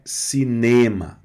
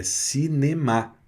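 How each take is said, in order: First: Cinema said with stress on the ne, as Portuguese would; the mistaken cinema, stress too early; wrong stress. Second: Cinema with the stress on the final ma; the right cinema, last syllable stressed; French stress. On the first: Teacher giving the wrong cinema students must avoid, mild. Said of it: "a tônica não é cinema". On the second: Teacher correcting students to the French cinema, firm. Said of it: "é cinema". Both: Shown as a demonstration.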